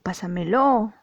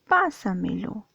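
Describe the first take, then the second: First: The stress falls on a later syllable. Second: The stress falls on the first syllable. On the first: The speaker calls it wrong. "o pásamelo. No" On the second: The speaker calls it right. "dices pásamelo"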